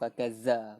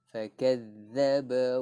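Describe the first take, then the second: First: The doubled consonant is a plain z sound. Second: The doubled consonant is a th-like sound. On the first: The speaker calls it wrong. "bukan fakazza, bukan z" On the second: The speaker calls it right. "Kita gigit lidah"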